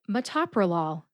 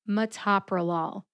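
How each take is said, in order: The two takes are said the same way.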